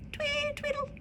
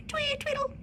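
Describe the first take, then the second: First: Very high, soft chirp of a chickadee; high chirpy birdsong. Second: Birdlike twee tweedle. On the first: Narrator chirping the chickadee song, very high and soft. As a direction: squeak it out like a tiny bird. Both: A narrator's reading. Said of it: "their song just sounded".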